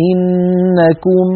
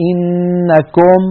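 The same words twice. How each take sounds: First: إنكم slow, held nasal n then "-kum"; إنكم with a pure close "u"; full damma. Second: إنكم slow, held n then "-kom"; إنكم with an open "o"; incomplete damma. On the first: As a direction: stretch إنكم and round the lips on "ku". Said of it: "نقول مثلًا". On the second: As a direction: stretch إنكم and slacken "ku" to "ko". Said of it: "ولا نقول". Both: Shown as a demonstration.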